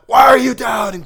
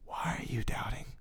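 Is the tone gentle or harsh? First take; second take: harsh; gentle. First: It is said in a harsh, scolding tone. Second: It is said in a soft, gentle tone. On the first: The doubt is met with an angry rebuke. The speaker calls it wrong. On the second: The doubt is met with tender concern. The speaker calls it right. "And this is the tone of God"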